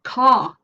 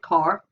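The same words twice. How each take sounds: First: An English accent, with no r sound after the vowel. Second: A Northern Irish accent, with the r pronounced. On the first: "Non-rhotic dialects like English English ... the r is not pronounced" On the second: "if we were in Northern Ireland, we'd get car"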